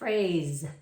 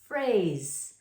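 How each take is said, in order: First: It is said fast, ending in a buzzing z. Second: It is said slowly, ending in a hissing s. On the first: "If we say it fast" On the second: "S is a snake"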